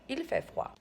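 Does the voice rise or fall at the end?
fall. The voice falls at the end, like a statement.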